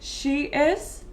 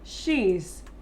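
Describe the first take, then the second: First: The two words are said separately in full. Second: The two words merge into one short syllable.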